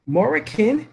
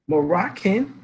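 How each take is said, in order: First: "Moroccan" said as MOR-ih-kun, open O in the first syllable; Moroccan with O sound. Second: "Moroccan" said as muh-ROCK-un, weak first vowel; Moroccan with schwa. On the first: Teacher shows the vowels swap, open O in Moroccan. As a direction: stretch the O in "Moroccan". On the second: Teacher shows the vowels swap, weak first vowel in Moroccan. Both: Shown as a demonstration. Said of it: "The letter O is interchangeable with E".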